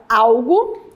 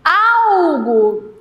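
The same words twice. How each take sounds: First: Said in the usual way. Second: "Algo" with a long, loud Al-; stretched stressed syllable. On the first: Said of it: "retirar a palavra algo". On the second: Shown as a demonstration. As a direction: hold the first syllable of "Algo", then drop onto -go. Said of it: "É aquela que eu passo mais tempo pronunciando".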